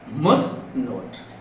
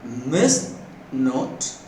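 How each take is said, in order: First: The vowel in 'must' is full and strong. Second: The vowel in 'must' is reduced and weak. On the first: "This is a strong form" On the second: "This is weak form"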